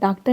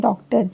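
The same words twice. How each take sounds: First: The first vowel is a short 'uh' sound. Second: The first vowel is an open 'aw' sound. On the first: The speaker calls it wrong. "जैसे हिंदी में पढ़ते हैं तो कैसे पढ़ते हैं" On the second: The speaker calls it right. "ये अ का साउंड देगी तो इसे बोलेंगे"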